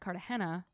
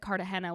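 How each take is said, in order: First: The name is said the pretentious, foreign-sounding way. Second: The name is said the everyday English way. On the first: The speaker calls it right. "was pronounced Cartagena" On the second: The speaker calls it wrong. "everyone thinks it's Cartagena"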